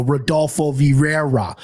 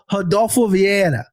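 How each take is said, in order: First: Rodolfo Vieira in flat American Midwest sounds, no rolled R; Midwest pronunciation. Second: "Rodolfo Vieira" with a rolled R in Brazilian Portuguese; Brazilian Portuguese pronunciation. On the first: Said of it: "my Midwest ass would go". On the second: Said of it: "Your Brazilian Portuguese was perfect. The rolled R was perfect". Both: Shown as a demonstration.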